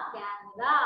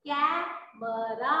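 First: Said in the usual way. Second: कैमरा drawn out very slowly, the ऐ stretched; कैमरा said very slowly as a model; slow demo word. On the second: Shown as a demonstration. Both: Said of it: "इसे हम बोलेंगे".

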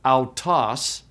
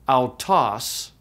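First: Autos said slowly, "ow-toss"; slow careful Greek word. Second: Autos said again alone, falling, "ow-toss"; repeated Greek word. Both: Shown as a demonstration. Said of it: "is pronounced autos".

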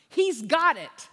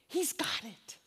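First: Loud reassurance. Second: Hushed whisper. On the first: Loud first take. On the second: Preacher whispering comfort to the congregation. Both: Real, not acted.

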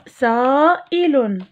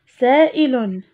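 First: سائل stretched slowly; teacher drawing out سائل; slow model word. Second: Said in the usual way. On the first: Shown as a demonstration. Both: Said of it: "المقطع الثاني".

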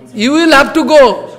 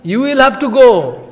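First: Higher and louder, a guru's order; firm command. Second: Said in the usual way. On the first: Retold or imitated. Guru ordering his weeping disciple, in a loud firm command. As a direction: lay down the order firmly. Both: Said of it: "Prabhupada saying".

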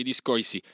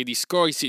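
First: A fading second discorsi; quieter scornful echo. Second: Discorsi tossed out high and loud, falling; sneering first discorsi; scornful, higher and louder. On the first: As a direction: let discorsi drop dismissively. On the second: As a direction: spit out discorsi with contempt. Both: Acted. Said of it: "disse Mowgli fra sé".

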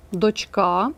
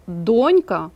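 First: "дочка" stressed on drawn-out КА; stress on final А. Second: "донька" stressed on ДОНЬ; stress on first syllable. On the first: Teacher asks to memorise it, stressing дочКА. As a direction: lengthen the ending: дочКА. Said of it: "на «а»". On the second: Teacher contrasts it with дочка, stressing ДОНЬка. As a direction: hit the start: ДОНЬка. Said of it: "наголос на першому складі". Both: Shown as a demonstration.

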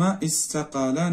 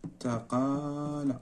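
First: Said in the usual way. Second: استقال very soft, broken into long syllables; slow dictation. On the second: Shown as a demonstration. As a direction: murmur استقال slowly as if writing it. Dictating word while writing it.

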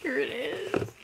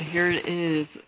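First: High, thin squeal of excitement; high-pitched fangirl squeak; excited. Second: Said in the usual way. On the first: Real, not acted. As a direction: squeak it out, overwhelmed. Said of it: "That was excitement".

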